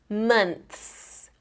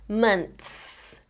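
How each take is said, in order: Both takes have the same delivery.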